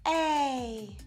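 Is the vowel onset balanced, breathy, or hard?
breathy. The vowel starts with an audible breath of air. "more on the breathy and the aspirated side"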